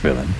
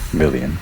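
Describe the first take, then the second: First: The word ends with a 'lane' sound. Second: The word ends with a 'lee-an' sound. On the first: The speaker calls it right. "it's villain" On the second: The speaker calls it wrong.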